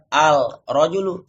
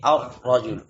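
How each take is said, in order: First: The lam is pronounced clearly as 'al'. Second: The lam merges into the r as 'ar'. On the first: The speaker calls it wrong. "bukan al-rajulu" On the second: The speaker calls it right. "tetapi ar-rajulu"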